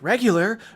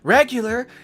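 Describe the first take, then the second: The two takes are said the same way.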